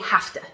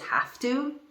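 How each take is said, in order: First: The two words are blended into one reduced form. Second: The two words are said fully and separately. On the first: The speaker calls it right. "We say have to, ... We push the sounds together" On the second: The speaker calls it wrong. "we don't pronounce it as have to"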